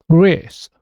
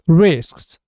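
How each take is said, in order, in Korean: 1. 단어의 끝은 s 소리 하나뿐입니다. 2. 끝자음 s, k, s가 모두 발음됩니다. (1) "첫 자음만 발음되고 나머지 두 개 자음은 소리가 없어지는 겁니다" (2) "이게 좀 전에 우리가 들었던 발음입니다"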